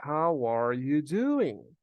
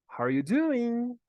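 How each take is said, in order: First: "How are you doing?" slow, with "are" fully pronounced; every word of "How are you doing?" separate and loud; full careful form. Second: "How are you doing?" with "are" almost swallowed; reduced "are". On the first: ("How are you doing?" devagar, com o "are" inteiro) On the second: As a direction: run "How are you" together, then stretch "doing" high and loud. ("How are you doing?" com o "are" quase mudo) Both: Shown as a demonstration. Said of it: "esse are aqui quase que não é pronunciado".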